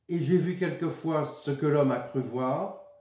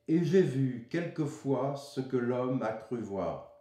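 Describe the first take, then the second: First: The line runs on without marked internal breaks. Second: The line breaks into four three-syllable groups. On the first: The speaker calls it wrong. "ce n'est pas, comme je l'ai prononcé plus ou moins tout à l'heure" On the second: The speaker calls it right. "Trois, trois, trois, trois syllabes, avec une césure, une coupe importante au milieu"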